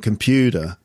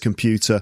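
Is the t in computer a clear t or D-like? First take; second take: D-like; clear t. First: The t sounds more like a d. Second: The t is a clear t sound. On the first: "you do it more like a D sound" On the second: "there's the T sound, which I say is computer"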